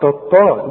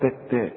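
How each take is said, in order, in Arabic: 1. صوت التاء ثقيل ومفخم. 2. صوت التاء خفيف ومرقق. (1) "اوعى تقول لي تطا تطا" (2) "عندك ته وته"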